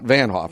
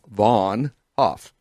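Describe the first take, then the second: First: The first syllable has the vowel of 'can'. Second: The first syllable has the vowel of 'on'. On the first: The speaker calls it wrong. "Not Van Hoff. Don't say that" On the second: The speaker calls it right. "it's Steve Va- Vaughn Hoff"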